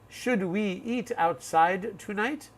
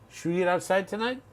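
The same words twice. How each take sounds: First: Each word is said separately and precisely. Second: The words run together in connected speech. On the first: The speaker calls it wrong. "Very precise English" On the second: The speaker calls it right. "That's how we would say it"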